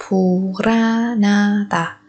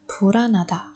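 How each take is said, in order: First: Slow, stretched "Puranada"; drawn out. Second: Said in the usual way. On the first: Shown as a demonstration. Teacher showing how sounds link, slowly drawn out. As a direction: stretch each syllable of "Puranada".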